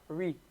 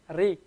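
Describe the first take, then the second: First: The r is a smooth English-style r. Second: The r is flicked off the tongue tip. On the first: The speaker calls it wrong. "It should not be like an uh, an English R" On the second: The speaker calls it right. "It should be ri, ri. It should come off of the tongue"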